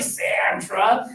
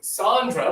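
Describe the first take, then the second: First: The first vowel is a flat American 'a'. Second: The first vowel is an open Spanish 'ah'. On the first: This is how people in the U.S. say the name. "but in the U S A, hi, Sandra" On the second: This is how the name is said in Mexico. "because she's from Mexico"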